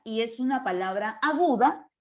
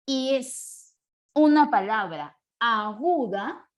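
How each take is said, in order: First: Said in the usual way. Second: Long pauses between stretched words; slow dictation. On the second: Real, not acted. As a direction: dictate it slowly, word by word. Dicta la regla mientras escribe. (dictado lento y pausado)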